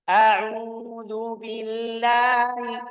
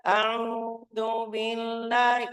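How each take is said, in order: First: Chanted, high, loud, slow recitation; chanted, sustained, projected intonation; open chant. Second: High, slow, nasal chant; held-back, humming recitation; not open enough. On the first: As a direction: open up and let the chant ring out. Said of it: "Kurang buka". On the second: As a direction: chant with a narrow mouth. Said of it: "Kalau kurang buka". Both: Shown as a demonstration.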